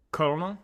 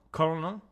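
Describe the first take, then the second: No difference in how they are said.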